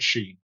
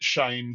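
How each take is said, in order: First: The name has the vowel of 'seen'. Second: The name has the vowel of 'rain'. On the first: The speaker calls it wrong. "but not Sheen" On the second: The speaker calls it right. "Shane rhymes with rain and lane"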